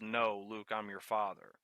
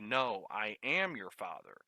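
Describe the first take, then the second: First: The word 'am' is not emphasized. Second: The word 'am' is emphasized.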